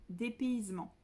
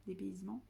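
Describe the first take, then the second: First: Said in the usual way. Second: Dépaysement? said quietly as a doubtful question, rising at the end; unsure questioning. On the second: Shown as a demonstration. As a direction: check the word Dépaysement? with a soft rising query. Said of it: "donc oui, dépaysement".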